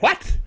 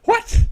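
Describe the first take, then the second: First: Higher, puzzled what; a put-on baffled viewer asking what; first take of a mock baffled what; mock surprise. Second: Much higher and louder what; the second what jumps up in disbelief; an emailing viewer's hammed-up outraged what; mock outrage. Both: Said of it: "people that went".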